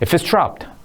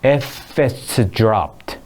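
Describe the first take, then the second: First: The phrase is said fast, with dr sounding like j. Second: The phrase is said slowly, with a clear dr sound. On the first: "빨리 하게 되면 이렇게 이렇게 됩니다" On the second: "천천히 해보면"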